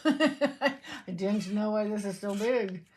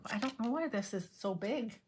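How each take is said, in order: First: Slow, laughing through the words. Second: Said in the usual way. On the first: Real, not acted. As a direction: giggle while saying it. Repeats line, laughing through it.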